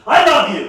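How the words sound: It is said angrily, as in an argument.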